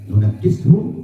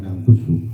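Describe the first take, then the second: First: Four syllables, starting nu-na, with a doubled consonant. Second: Three syllables, starting nan, with no doubled consonant. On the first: This is the reading of two particular reciters. "Imam Hamzah dan Imam Hasim membaca dengan tasdid, berarti nunakishu" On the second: This is the reading of the other reciters. "dipatahkan nun yang pertama berarti na, ... yang kedua disukunkan berarti nam, ... didomahkan kafnya berarti nangkus hu"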